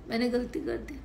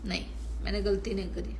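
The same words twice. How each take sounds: First: Rising, questioning मैंने गलती कर दी; doubtful question. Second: Quick, falling नहीं, मैंने गलती नहीं करी with stress on गलती; fast, softer, certain rebuttal; firm denial. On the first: Shown as a demonstration. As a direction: ask मैंने गलती कर दी as if unsure. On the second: Real, not acted. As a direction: snap back the denial fast.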